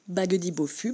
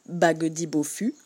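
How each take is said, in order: First: The phrase is spoken at a fast pace. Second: The phrase is spoken at a medium pace. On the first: "on accélère encore un petit peu" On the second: "Un peu plus vite"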